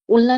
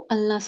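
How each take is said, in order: First: The first vowel sounds like 'oo'. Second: The first vowel sounds like 'uh'. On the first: The speaker calls it wrong. "उल्ना नहीं बोलते इसको" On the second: The speaker calls it right. "अल्ना से pronounce इसकी pronunciation है"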